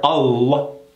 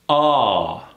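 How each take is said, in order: First: The L sound is pronounced hard and clearly. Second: The L sound is relaxed and barely there. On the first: The speaker calls it wrong. "Instead of hitting that L hard" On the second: The speaker calls it right. "relax that L like it's barely there"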